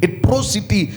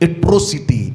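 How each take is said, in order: First: The second vowel sounds like 'oh'. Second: The same.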